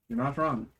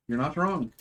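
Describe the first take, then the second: No difference in how they are said.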